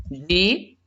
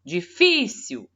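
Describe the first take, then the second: First: "Difícil" broken into Di - fi - cil with long pauses; syllable by syllable. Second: "Difícil" as one word, leaning hard on the middle "fí"; stressed syllable called out. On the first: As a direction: say "Difícil" one separated syllable at a time. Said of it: "depois da divisão silábica". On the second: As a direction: call out "Difícil" with a drawn-out, punched "fí". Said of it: "eu preciso achar a sílaba tônica". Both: Shown as a demonstration.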